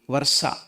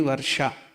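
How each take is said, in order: First: The middle sound is a plain s. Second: The middle sound is a palatal sh. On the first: "It will not be varsa" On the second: "it will not be varsha"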